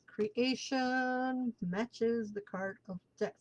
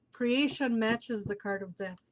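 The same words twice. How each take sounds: First: Slow, softer dramatic reveal; slow and hushed. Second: Said in the usual way. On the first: Shown as a demonstration. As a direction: let each word land slowly.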